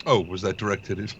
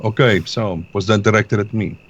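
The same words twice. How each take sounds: First: Put-on Russian accent slipping into British; a Russian voice that drifts into British; accidental British accent. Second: Put-on retry the line in a Russian accent; Russian accent back on. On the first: Player's Russian accent drifts British. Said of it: "That was British". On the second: Player retakes the line in a Russian accent. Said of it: "drifting away from the Russian".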